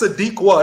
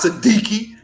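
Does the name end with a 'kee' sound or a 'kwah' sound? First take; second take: kwah; kee. First: The name ends with a 'kwah' sound. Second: The name ends with a 'kee' sound. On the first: The speaker calls it right. "That's Sadiqwa. That's a Q and an A" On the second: The speaker calls it wrong. "It's not Siddiqui. Don't be ignorant"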